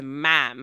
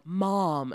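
First: "ma'am" for Mom, drawn-out flat "a" as in cat; "ma'am" as a Chicagoan says Mom; Chicago vowel in Mom. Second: "Mom" with a standard open "ah" vowel; Mom without Chicago vowel. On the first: Shown as a demonstration. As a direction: stretch "ma'am" slowly, Chicago-style front vowel. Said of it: "There's an "ah" in there". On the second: Retold or imitated. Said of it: "Uh-uh, that's ma'am".

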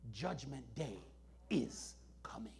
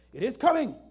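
First: Whispered, much softer and lower; hushed whisper. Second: Louder firm declaration. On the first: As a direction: lean in and whisper it. Preacher drops to a whisper. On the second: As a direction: say it out loud, firmly. Repeats aloud after whisper. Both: Acted.

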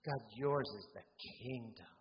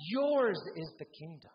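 First: "kingdom" given the emphasis, pitch held low; stress on kingdom. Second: Yours punched high and loud; big emphatic "Yours" up front; stress on Yours. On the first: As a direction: lower line leaning on "kingdom". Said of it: "you can emphasize". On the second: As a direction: lean hard on "Yours", then fall away. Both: Shown as a demonstration.

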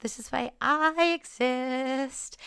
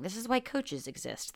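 First: "I" held long and high, "exist" drawn out; emphatic I. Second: Said in the usual way. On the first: Real, not acted. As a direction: stretch out "I exist" slowly, pitched up. Emphatic twist on the previous line.

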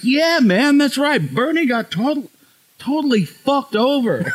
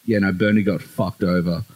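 First: Put-on high, emphatic American accent; American Uber driver. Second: Low Aussie drawl. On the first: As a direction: imitate an American driver heartily agreeing, voice way up high. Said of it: "Uber with this guy". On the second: Retold or imitated. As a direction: lay on a thick, low Australian drawl. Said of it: "most Aussie drawl ever".

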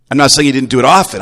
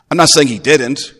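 First: Quick, loud, landing on "often" with a falling tune; stress on often. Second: "not" hit hard and high; stress on not. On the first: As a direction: rush through and stress "often". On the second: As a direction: punch the word "not", the rest even. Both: Shown as a demonstration.

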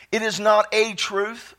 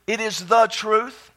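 First: "a" said as a full, emphasized "ay"; slowly, leaning on the word "a"; stress on A. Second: "the" given full weight before "truth"; slowly, leaning on the word "the"; stress on THE. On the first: Preacher praying about the Word, stressing "a". Contrasts "a" with "the. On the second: Preacher praying about the Word, stressing "the". Contrasts "the" with "a. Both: Real, not acted.

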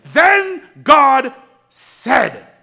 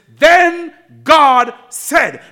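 First: Drawn-out shout, higher and louder; preacher repeating the phrase louder for emphasis; slow emphatic shout. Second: Drawn-out, louder and higher, every word stressed; preacher stressing the phrase for the church; slow emphatic. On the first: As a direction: shout each word slowly. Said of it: "Did I say that?". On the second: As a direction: lean hard on Then God said. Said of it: "I said it for emphasis". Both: Shown as a demonstration.

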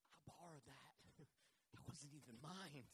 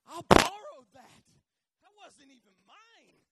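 First: Low, hushed, small voice; sheepish admission. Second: High, drawn-out wail, hugely loud at first; crying out. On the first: Prophet telling Elisha about the borrowed axe, hushed and sheepish. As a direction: own up softly, voice sinking. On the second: Man owning up about a borrowed axe, crying out. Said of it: "He cries out". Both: Acted.

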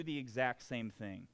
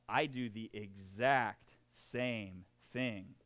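First: Said in the usual way. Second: "I" leaned on, whole line slow and deliberate; "I do the exact same thing" with "I" pressed hard; stress on I. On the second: Shown as a demonstration. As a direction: land on "I", confessing, slowly.

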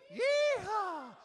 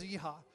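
First: High, full cowboy whoop; yeehaw shout. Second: Said in the usual way. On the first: Shown as a demonstration. Leader whooping to get the congregation joining in, high shout. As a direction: let the yeehaw ring out high. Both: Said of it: "Everybody, come on".

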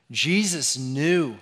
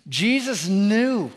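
First: Said in the usual way. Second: Higher, louder, slow Jesus knew; preacher's rising refrain on "Jesus knew"; building emphasis. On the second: Acted. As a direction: lean hard on "Jesus knew".

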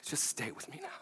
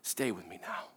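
First: Whispered, very soft and tender; a tender whispered plea. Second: Soft, low, tender plea; hushed tender reassurance. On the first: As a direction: breathe it to her in a whisper. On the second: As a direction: say it gently, like holding someone close. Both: Retold or imitated. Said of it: "it comes out very tenderly".

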